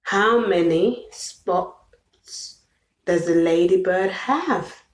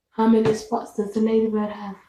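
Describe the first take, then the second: First: Put-on drawn-out, slow question for a child; slow, sing-song question to a toddler. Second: Fast run-through of the question; quick repeat of the question to a toddler. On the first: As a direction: stretch each word out slowly. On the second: Acted. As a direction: rattle it off quickly. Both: Repeats question slowly, then fast.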